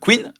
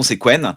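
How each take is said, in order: First: The name is said with an 'i' vowel, like Quinn. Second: The name is said with an 'e' vowel, like Quen. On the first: The speaker calls it wrong. "vous dites Quinn vous?" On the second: The speaker calls it right. "mais tu as raison, c'est Quen"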